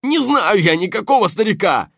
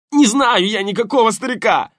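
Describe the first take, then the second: First: High loud shout, thug's voice, fake denial; insincere shout. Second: High loud thug shout, denial under pain; desperate shout. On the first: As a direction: yell the lie, too loud. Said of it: "неискренне закричал противник". (неискренний крик) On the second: Acted. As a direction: yell it out as the arm bends. Повтор под болью. (отчаянный крик)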